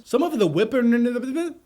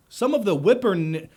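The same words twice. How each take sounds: First: Slow, drawn-out stumble on "whippin-", pitched higher; carefully sounding out "whippin-" and getting stuck; slow, higher-pitched struggle to say "whippin-"; stumbling on a word. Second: Said in the usual way. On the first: Shown as a demonstration. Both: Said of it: "why can't I say this word?".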